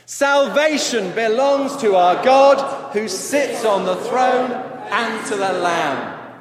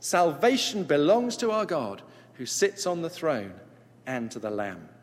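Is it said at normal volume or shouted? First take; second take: shouted; normal volume. First: It is shouted out very loudly. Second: It is said at normal reading volume.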